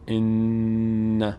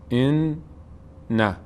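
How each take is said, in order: First: The doubled n is held smoothly, without a break. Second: A break separates the two n sounds. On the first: The speaker calls it right. "روش مکس میکنیم در هنگام تلفظ" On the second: The speaker calls it wrong. "من به خاطر اینکه مشخص بشه اینجوری مکس کردم"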